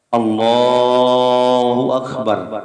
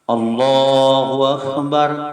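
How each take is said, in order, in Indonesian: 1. Vokal dalam Allah dipanjangkan terlalu lama. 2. Vokal dalam Allah berlangsung empat ketukan. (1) "Kepanjangan kalimat takbir itu" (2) "dibuat empat harokat"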